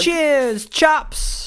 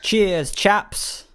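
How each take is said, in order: First: Much higher, strained British impression; hammed-up bad British accent, very high; squeaky mock British accent. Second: Breathy whispered British impression; whispered mock British accent. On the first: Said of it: "It's not good, is it?". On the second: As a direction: whisper it like a bad British impersonation. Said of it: "Oh, God".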